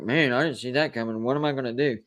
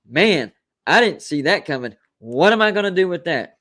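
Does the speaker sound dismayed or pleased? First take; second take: dismayed; pleased. First: It sounds dismayed, like a bad surprise. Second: It sounds pleased, like a good surprise.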